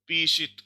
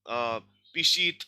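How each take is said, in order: First: The stress is on the first syllable. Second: The stress is on the second syllable. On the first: The speaker calls it right. "लेकिन क्या है, पीशित है" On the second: The speaker calls it wrong. "Stress पिशात, पिशीत ऐसे बोलेंगे"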